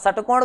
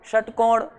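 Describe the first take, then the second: First: The first s has the tongue at the teeth. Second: The first s has the tongue curled back. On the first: The speaker calls it wrong. "षटकोण में सीधी जाएगी दांतों की तरफ, वो सा गलत हो गया ना फिर।" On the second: The speaker calls it right. "षटकोण थोड़ी सी पीछे आएगी"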